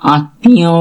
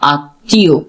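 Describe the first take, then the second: First: The m sound is pronounced in the middle. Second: The m sound is silent in the middle. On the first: The speaker calls it wrong. "আমরা আত্মা আত্মীয় বলি না" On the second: The speaker calls it right. "আমরা মটাকে একদম উচ্চারণ করি না"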